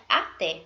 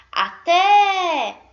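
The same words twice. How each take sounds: First: Said in the usual way. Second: Loud, high-pitched call, final vowel held long. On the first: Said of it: "eu vou chamar a palavrinha". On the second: Shown as a demonstration. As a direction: holler it across the street, stretching the end. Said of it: "agora eu vou chamar a palavrinha".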